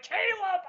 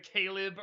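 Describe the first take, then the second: First: High-pitched cry of Caleb as KAY-lub; exaggerated high call, Caleb as KAY-lub; mock exclamation. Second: Said in the usual way. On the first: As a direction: call out Caleb far above your usual pitch. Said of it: "I'm like, "Caleb!". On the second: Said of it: "I think I said Caleb or something like that".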